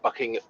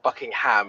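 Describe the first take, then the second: First: The last syllable is reduced to 'um', English-style. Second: The last syllable sounds like full 'ham'.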